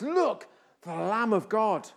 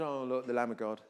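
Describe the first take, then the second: First: It is said as an excited exclamation. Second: It is said in a mild, casual way.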